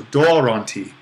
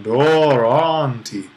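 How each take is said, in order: First: DORON stressed only on its first syllable, then an unstressed ti; modern stress accent. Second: DORON drawn out with pitch swells on both syllables, then ti falls; ancient pitch accent. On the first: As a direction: punch the DO of "doron", let the rest fall away. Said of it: "our kind of modern pronunciation". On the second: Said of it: "they would have done". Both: Shown as a demonstration.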